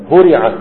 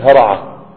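First: هرعة said with u then i, "huri'a"; valid passive form. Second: هرعة said with a-vowels, "hara'a"; rejected active form. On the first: Teacher giving another passive-only verb, passive pronunciation. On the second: Teacher saying this form doesn't exist, active pronunciation. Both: Shown as a demonstration. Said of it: "ما فيش هرعة".

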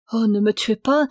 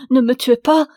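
First: Begging for her life, pleading but held back; frightened plea. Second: Higher, much louder desperate plea, rising on pas; terrified scream. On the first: Wife begging her husband for mercy, a first frightened plea. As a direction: plead with him not to kill her. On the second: Wife begging her husband for mercy, a louder terrified cry. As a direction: scream for your life, begging. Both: A narrator's reading. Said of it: "criait la pauvre femme".

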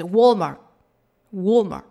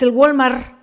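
First: Imitating an American "Walmart"; careful English-style "Walmart", less forceful; American pronunciation. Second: Loud, Mexican-style "el Walmart"; "Walmart" with a hard Spanish gw and r; Spanish pronunciation. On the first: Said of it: "a lo mejor yo ni siquiera lo estoy pronunciando bien". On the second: Shown as a demonstration. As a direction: say "Walmart" as a Spanish word, "gualmar". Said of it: "así es como lo decimos en español".

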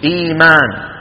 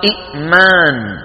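First: إيمان with a smooth long "ii"; hamza turned long. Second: إئمان with a glottal catch after short "i"; original two hamzas. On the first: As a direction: hold the first vowel of إيمان, no glottal catch. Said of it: "شو بيقولوا". (إيمان بمد الياء) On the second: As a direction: break إئمان sharply after its first syllable, then long "maan". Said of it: "وأصلها". (إئمان بهمزة ساكنة محققة) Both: Shown as a demonstration.

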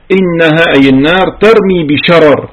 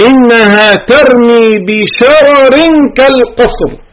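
First: Said in the usual way. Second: Higher, slow chanted verse; ترتيل مرتفع وبطيء; Quran recitation. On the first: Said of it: "explains the recited verse". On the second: Shown as a demonstration. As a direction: intone the verse slowly and higher, then explain it.

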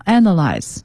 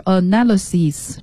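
First: "analyze" with the weight on the first syllable, A-na-lyze; stress on first syllable. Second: "analysis" stressed on na, a-NA-ly-sis; stress on second syllable. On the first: Teacher models "analyze" stressed on the first syllable. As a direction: hit the opening syllable of "analyze" hard. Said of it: "analyze这个词的重音在第一个音节上". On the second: Teacher contrasts noun "analysis" stressed on na. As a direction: lean on the na of "analysis". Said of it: "这时候重音就在na-，analysis上面了". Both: Shown as a demonstration.

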